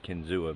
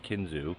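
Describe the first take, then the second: First: The name ends with an extra 'ah' syllable. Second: The name ends in 'zoo' with no extra syllable. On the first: The speaker calls it wrong. "I always pronounce it as Kinzua" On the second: The speaker calls it right. "it's actually pronounced Kinzu"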